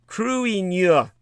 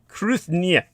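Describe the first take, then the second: First: No 'th' sound is heard mid-word. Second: A 'th' sound is heard mid-word. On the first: The speaker calls it right. "but it's pronounced Kruinia" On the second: The speaker calls it wrong. "You would think it would be pronounced Kruthnia"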